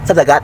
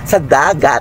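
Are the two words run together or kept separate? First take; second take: run together; separate. First: The two words are run together quickly. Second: The two words are kept clearly apart. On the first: The speaker calls it wrong. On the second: The speaker calls it right.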